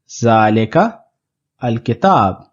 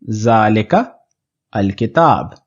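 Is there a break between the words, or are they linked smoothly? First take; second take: break; break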